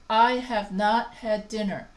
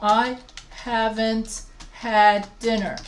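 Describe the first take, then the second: First: Have not is said as two full words. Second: Have not is contracted to haven't. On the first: The speaker is being formal and educated. "sounds more British and more formal" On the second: The speaker is being casual and informal. "if I'm talking to my friends, my family, I use contractions"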